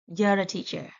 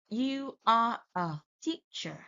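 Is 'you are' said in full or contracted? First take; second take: contracted; full. First: You are is contracted into one syllable. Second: You are is said as two full words. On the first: The speaker calls it right. "we should say" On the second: The speaker calls it wrong. "Instead of saying"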